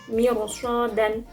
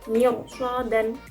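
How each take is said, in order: The two takes are said the same way.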